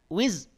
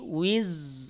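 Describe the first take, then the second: First: The z sound is cut off abruptly. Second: The z sound flows and is drawn out. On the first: The speaker calls it wrong. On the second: The speaker calls it right.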